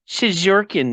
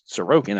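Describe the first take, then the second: First: The name is said in a distorted, nonstandard form. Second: The name is said in its standard form. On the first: The speaker calls it wrong. "that's how I used to pronounce it" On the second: The speaker calls it right. "how it's really pronounced"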